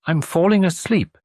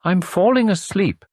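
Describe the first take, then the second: First: Plain. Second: Slow, drowsy imitation of sleepiness; mock dreamy drowse. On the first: Retold or imitated. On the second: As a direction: drift off as you say it. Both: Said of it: "you says in a dreamy voice".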